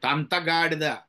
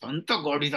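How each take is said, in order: First: Firmer mock telling-off of a grown child; stern scolding. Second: Light, playful telling-off; fond scolding of a child. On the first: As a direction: scold an older child for a mistake. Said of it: "పెద్ద అయిన తర్వాత తప్పు చేస్తే". (పెద్దవాణ్ణి గట్టిగా మందలిస్తూ) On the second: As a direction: scold a small child without real anger. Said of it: "చిన్నపిల్లల్ని తిట్టడానికి". (చిన్నపిల్లని ముద్దుగా తిడుతూ) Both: Shown as a demonstration.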